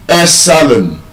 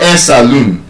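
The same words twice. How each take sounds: First: Salon as SA-lun, reduced ending; first-syllable stress. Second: Saloon as sa-LOON; long stressed -loon ending saloon; wrong second-syllable stress. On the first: Teacher giving the correction, salon stressed on SA. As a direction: hit SA in salon, let the rest fall. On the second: Teacher showing what not to say, saloon stressed late. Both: Shown as a demonstration. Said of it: "It's not a saloon".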